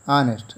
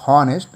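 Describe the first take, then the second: First: Honest said anest with a silent H; correct honest. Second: Honest with the H sounded, hon-est; wrong honest. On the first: Teacher gives pupils the right honest, H silent. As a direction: drop the H in honest. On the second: Teacher shows pupils the wrong honest, H sounded. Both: Shown as a demonstration. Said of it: "not honest".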